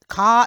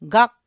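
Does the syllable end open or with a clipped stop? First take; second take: open; clipped stop. First: The syllable ends open on the vowel. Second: The syllable ends with a short clipped stop. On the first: The speaker calls it wrong. "이게 아니라" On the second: The speaker calls it right. "이런 식으로 발음하세요"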